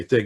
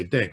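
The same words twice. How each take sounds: First: Said in the usual way. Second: "ding" for thing, hard d, lower and softer; Jersey ding. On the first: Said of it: "'cause you Jersey guys don't say thing". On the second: Shown as a demonstration. Teasing a Jersey friend with a Jersey "ding". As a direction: say "ding" with a d where the th goes. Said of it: "you Jersey guys don't say thing, you say ding".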